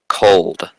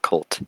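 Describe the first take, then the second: First: The name ends with a D sound. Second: The name ends with a T sound. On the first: The speaker calls it right. "Cold, not Colt" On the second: The speaker calls it wrong. "not Colt"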